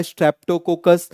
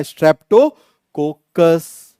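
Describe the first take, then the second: First: Said in the usual way. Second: Slow spelled-out term. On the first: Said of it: "क्या नाम हो जाएगा?". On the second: Shown as a demonstration. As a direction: stretch each syllable very slowly. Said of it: "क्या नाम हो जाएगा इसका?".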